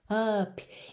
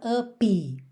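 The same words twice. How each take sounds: First: The word ends on the p with no vowel. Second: An extra vowel sound follows the final p. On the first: "Não precisa se preocupar em fazer up" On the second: "por favor, não faça up"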